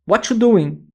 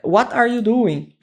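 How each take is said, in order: First: It is said fast with a word dropped. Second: Every word is said in full. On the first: "ela falou mais rápido, né? ... Abreviado" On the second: "a pessoa utilizou"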